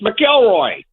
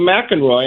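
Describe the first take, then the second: First: The name has an L sound in the middle. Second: The name has an N sound in the middle. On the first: The speaker calls it right. "I said it's McElroy" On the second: The speaker calls it wrong. "he called him McEnroy"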